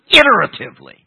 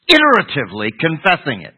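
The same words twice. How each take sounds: First: Iteratively said high and loud, each syllable weighted; stress on iteratively. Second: Said in the usual way. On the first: Shown as a demonstration. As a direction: lean hard on iteratively to make the point. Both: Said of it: "this is why I stress that word".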